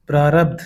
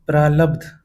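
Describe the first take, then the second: First: Said in the usual way. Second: प्रालब्ध with l in the middle. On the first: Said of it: "शुद्ध है". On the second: Shown as a demonstration. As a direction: say प्रालब्ध as praalabdh. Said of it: "अशुद्ध".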